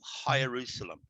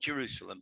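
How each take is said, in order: First: The word starts with an H sound. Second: The word starts with a J sound. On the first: "they talk about High Jerusalem" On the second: "not Jerusalem"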